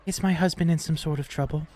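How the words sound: It is said in a put-on character voice.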